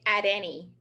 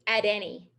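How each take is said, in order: The two takes are said the same way.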